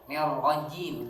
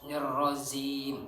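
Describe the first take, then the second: First: The middle consonant is a j sound. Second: The middle consonant is a z sound. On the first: The speaker calls it right. "Bukan. Nirrojim" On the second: The speaker calls it wrong. "ada yang baca"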